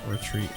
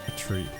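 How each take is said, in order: No difference in how they are said.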